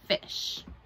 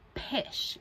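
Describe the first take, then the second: First: The word begins with an F sound. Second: The word begins with a P sound.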